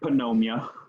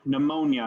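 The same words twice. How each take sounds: First: The word begins with a P sound. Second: The word begins with an N sound. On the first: The speaker calls it wrong. "not pneumonia" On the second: The speaker calls it right. "It's pneumonia, silent P"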